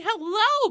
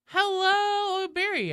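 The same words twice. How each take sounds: First: High, loud sing-song hellos; roll call greetings. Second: Much higher, loud sing-song hello; high pitched greeting. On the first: Streamer doing a Twitch roll call, high sing-song. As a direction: call out each name brightly, much higher. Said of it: "let's do a Twitch roll call". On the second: Streamer greeting Barry in a high sing-song. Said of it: "voice is just getting increasingly high pitched". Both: Real, not acted.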